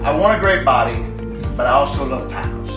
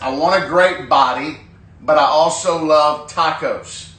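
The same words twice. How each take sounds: First: It is said in a put-on character voice. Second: It is said in the speaker's normal voice.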